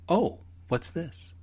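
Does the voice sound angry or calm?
calm. It is said in a calm, mild tone.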